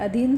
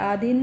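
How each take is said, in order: First: The first vowel is short 'a'. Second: The first vowel is long 'aa'. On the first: The speaker calls it right. "आ की जगह पे अ आता है" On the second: The speaker calls it wrong. "आधीन नहीं होता"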